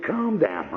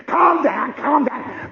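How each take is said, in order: First: Said in the usual way. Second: High shouted mimicry of calm down; loud scornful echo; mock shout. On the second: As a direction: fling the words back, mocking. Cop mocking calm down.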